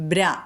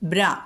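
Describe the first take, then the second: Both takes have the same delivery.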